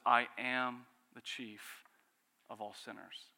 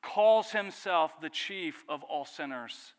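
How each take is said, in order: First: Slow, with weight on I; solemn quote. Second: Slow, loud, each word weighted; emphatic preaching. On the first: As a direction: land heavily on I, then let it sink. Quoting Paul's confession. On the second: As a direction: lean hard on every word of the confession. Preacher stresses Paul's confession. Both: Acted.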